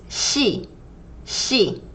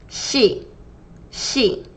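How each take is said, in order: Both takes have the same delivery.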